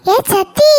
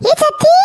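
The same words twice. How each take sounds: First: First loud call across the yard; raised call from a distance. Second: Much higher, ringing second call; high, urgent repeat call. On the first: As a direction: call her name to catch her attention. Calling out to a relative. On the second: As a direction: shout her name again, really reaching. Calling out again, louder. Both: Acted.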